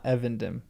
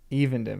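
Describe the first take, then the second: First: The first vowel is a short E sound. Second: The first vowel is a long E sound. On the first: The speaker calls it wrong. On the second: The speaker calls it right. "long E"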